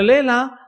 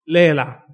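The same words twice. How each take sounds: First: Léela punched high and loud; léela said with strong emphasis; urge to read it. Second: Léela called out loud and falling; emphatic léela, loud with a falling end; final urging. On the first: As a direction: hit léela hard and high as a plea. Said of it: "pues, lee la Biblia". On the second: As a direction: press léela on them as a closing charge. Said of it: "Yo diría". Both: Shown as a demonstration.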